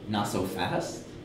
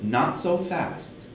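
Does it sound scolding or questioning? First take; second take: questioning; scolding. First: It sounds like a doubtful question. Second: It sounds like scolding a child.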